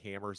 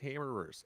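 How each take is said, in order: First: The word has only one 'er' syllable. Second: The word has two 'er' syllables. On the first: The speaker calls it wrong. "I will continue to say stubby hammers out loud" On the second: The speaker calls it right. "but it is hammerers"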